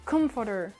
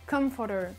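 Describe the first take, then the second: Both takes have the same delivery.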